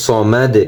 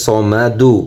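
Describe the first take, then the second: First: "সমাদ" stopped on D, no final "u"; pausal form. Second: "সমাদু" with the final "u" voiced; broken-down form. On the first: Teacher showing the pause, "সমাদ" without final vowel. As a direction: end "সমাদ" on the released consonant. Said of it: "যদি ওকফ করি". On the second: Teacher spelling out the word, "সমাদু" with final vowel. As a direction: say "সমাদু" syllable by syllable, ending on "du". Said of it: "ভেঙে ভেঙে উচ্চারণ করি". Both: Shown as a demonstration.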